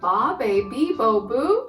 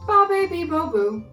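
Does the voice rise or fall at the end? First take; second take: rise; fall. First: The voice rises at the end like a question. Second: The voice falls at the end like an answer.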